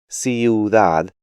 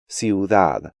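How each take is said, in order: First: The i and u form two syllables. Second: The i and u form one syllable. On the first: The speaker calls it wrong. "break these diphthongs up" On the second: The speaker calls it right. "when they should be pronounced more like"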